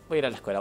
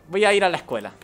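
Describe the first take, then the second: First: Said in the usual way. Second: Louder and higher, insistent; emphatic declaration. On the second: Real, not acted. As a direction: say it firmly, exasperated. Repeating line with emphasis.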